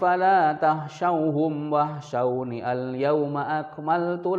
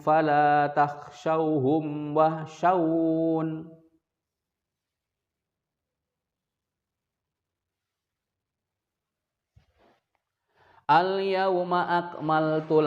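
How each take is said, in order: First: Both phrases run on in one breath. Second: There is a breath pause before the second phrase. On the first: "harusnya satu napas. Seperti ini" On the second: "boleh dipenggal seperti tadi ya"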